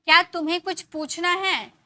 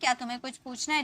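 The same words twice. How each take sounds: First: Higher and louder, stress on क्या; emphatic question. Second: Said in the usual way. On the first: Shown as a demonstration. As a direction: push the question क्या out firmly. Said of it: "तो हम ये sentences को ऐसे बोल सकते हैं". ("क्या" पर ज़ोर, ऊँची और तेज़ आवाज़)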